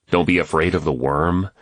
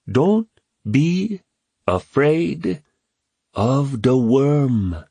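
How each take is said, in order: First: Said in the usual way. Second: High and very slow, word by word; solemn boy's proverb. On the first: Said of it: "James repeats puzzled". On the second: A narrator's reading. Kwame composing himself to tell James, slow solemn boy's voice. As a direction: deliver it like a solemn saying.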